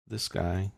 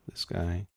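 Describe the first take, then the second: No difference in how they are said.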